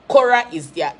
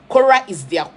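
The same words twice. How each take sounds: The two takes are said the same way.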